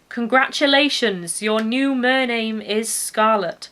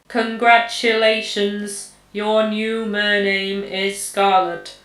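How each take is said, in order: First: It is said in a natural, ordinary voice. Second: It is said slowly in a robotic voice.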